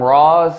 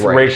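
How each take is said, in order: First: The name is said like 'Roz', rhyming with 'Oz'. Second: The name is said like 'Raish', rhyming with 'rash'. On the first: The speaker calls it wrong. "They call him Roz" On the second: The speaker calls it right. "That's the correct pronunciation of the name"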